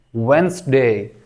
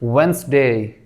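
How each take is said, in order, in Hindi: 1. बीच का d पूरी तरह से छोड़ दिया जाता है। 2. बीच का d पूरी तरह से छोड़ दिया जाता है।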